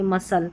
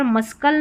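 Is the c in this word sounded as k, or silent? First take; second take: silent; k sound. First: The c is silent, with no k. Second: The c is sounded as a k. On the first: The speaker calls it right. "सी silent भी रहता है" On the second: The speaker calls it wrong. "मस्कल नहीं पढ़ेंगे"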